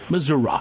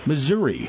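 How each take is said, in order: First: It uses the small-town pronunciation of the name. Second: It uses the city pronunciation of the name. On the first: The speaker is addressing small-town voters. "But when they're doing the small towns, it's Missouri" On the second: The speaker is addressing city voters. "when they were in St. Louis or in Kansas City, they pronounced it Missouri"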